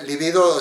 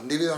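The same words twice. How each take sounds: First: Libido said li-BI-do, stress on the second syllable; correct libido. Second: Líbido said LÍ-bi-do, stress on the first syllable; wrong líbido. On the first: Stressing BI in libido to set the right form against líbido. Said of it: "no lleva acento". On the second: Stressing LÍ in líbido to show how people say it in Spain. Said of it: "a veces en España dicen líbido". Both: Shown as a demonstration.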